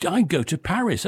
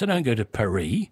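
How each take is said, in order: First: Paris said "PA-riss"; plain PA-riss; English Paris. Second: Paris said "pa-REE"; mock French Paris. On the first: Shown as a demonstration.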